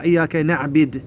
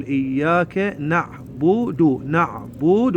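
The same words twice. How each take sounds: First: إياك نعبد as "na'bid"; demonstrated mistake, نعبد with "i"; mistaken kasra. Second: Very slow إياك نعبد as "na'-bu-du"; careful syllable-by-syllable model of نعبد; corrected dammas. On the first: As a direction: put an "i" on the b of نعبد. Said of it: "نكسرها للباء". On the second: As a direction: stretch both "u" vowels in نعبد. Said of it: "لا، نقول". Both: Shown as a demonstration.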